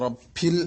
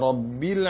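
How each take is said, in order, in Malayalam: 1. നടുവിലെ വ്യഞ്ജനം ശ്വാസം കലർന്നതായി തോന്നുന്നു, p യോട് അടുത്തത്. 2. നടുവിലെ വ്യഞ്ജനം വ്യക്തമായ നാദമുള്ള b ആണ്. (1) "എങ്ങനെയാണ് തെറ്റാറുള്ളത്?" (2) "ശരിയായ ബാ തന്നെ ഉച്ചരിക്കണം"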